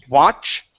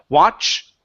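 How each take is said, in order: No difference in how they are said.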